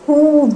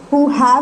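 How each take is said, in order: First: The two words are merged into one syllable. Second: The two words are said fully and separately. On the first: The speaker calls it right. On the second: The speaker calls it wrong. "who have नहीं जाता"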